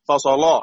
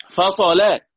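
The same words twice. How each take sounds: First: "فصلا" ending in a thick l and backed a; heavy lam. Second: "فصلا" ending in a thin l and fronted a; light lam. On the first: Teacher quizzes class on stopping, heavy lam. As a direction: say "فصلا" with a dark, heavy final "la". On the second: Teacher quizzes class on stopping, light lam. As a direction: say "فصلا" higher, with a light final "la". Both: Shown as a demonstration. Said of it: "تفخم ولا ترقق؟".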